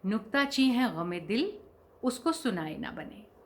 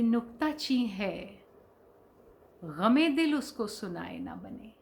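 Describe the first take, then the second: First: There is a pause right after 'gham-e-dil'. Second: There is a pause right after 'hai'. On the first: The heart's sorrow is the critic. The speaker calls it wrong. "अक्सर लोग उसे क्या पढ़ते हैं" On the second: The beloved is the critic. The speaker calls it right. "ये महबूब के लिए कहा गया है"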